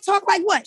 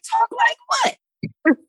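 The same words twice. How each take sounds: First: Higher, quicker puzzled question; puzzled retort. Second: Much higher, slow, stretched-out mock disbelief; incredulous disbelief. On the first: Retold or imitated. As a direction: toss it back, a little baffled. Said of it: "I'm like". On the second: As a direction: drag it out, baffled and very high. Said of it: "And I was like".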